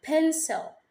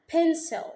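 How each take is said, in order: Both takes have the same delivery.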